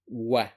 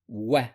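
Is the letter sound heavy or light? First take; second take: light; light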